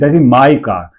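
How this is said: The stress falls on the word my. "तो माई पे जोर लग रहा है ना"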